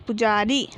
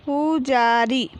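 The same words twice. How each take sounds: First: Said in the usual way. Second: Slow, stretched पु, जा, री, falling at the end; drawn-out teaching reading of पुजारी; syllable by syllable. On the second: Shown as a demonstration. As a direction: sound out पुजारी piece by piece. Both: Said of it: "तो हम इस प्रकार पढ़ेंगे".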